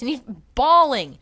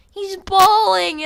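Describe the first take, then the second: First: Said in the usual way. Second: "bawling" drawn out, high and loud; stress on bawling. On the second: Shown as a demonstration. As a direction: stretch "bawling" in disbelief. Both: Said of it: "repeated for emphasis".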